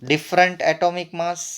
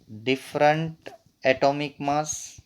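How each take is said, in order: First: Said in the usual way. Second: Very slow, broken up for note-taking; dictation pace. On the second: Real, not acted. Teacher repeating a definition for note-takers, slow dictation. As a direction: pause after the first word, measured.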